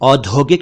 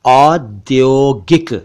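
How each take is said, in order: First: The middle consonant has an aspirated 'dh' sound. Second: The middle consonant is a 'dy' cluster. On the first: The speaker calls it wrong. "नहीं" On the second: The speaker calls it right. "बल्कि"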